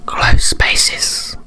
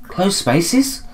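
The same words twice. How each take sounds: First: Voiceless, drawn whisper; creepy whisper. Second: Higher voice, rising question; puzzled high echo. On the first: Player hamming up the ghost's phrase, creepy whisper. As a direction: whisper it spookily for effect. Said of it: "I don't know why I did that". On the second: Character echoing the ghost, puzzled high question. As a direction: ask it timidly, pitched up. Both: Acted.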